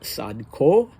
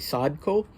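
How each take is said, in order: First: The stress is on the second syllable. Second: The stress is on the first syllable. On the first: The speaker calls it right. "the second syllable is stressed" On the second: The speaker calls it wrong. "I would have been more inclined to say Sadko"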